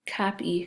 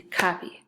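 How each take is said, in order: First: "Copy" as two beats, cop, ee; split into syllables. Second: Said in the usual way. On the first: Shown as a demonstration. Teacher showing second graders the syllables, "Copy" in two parts. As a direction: separate "Copy" before the long E. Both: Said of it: "first syllable".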